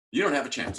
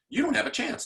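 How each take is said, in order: First: Said in the usual way. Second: "don't" hit high and hard; emphatic. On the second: Shown as a demonstration. Warning principals about late contact, "don't" pitched high.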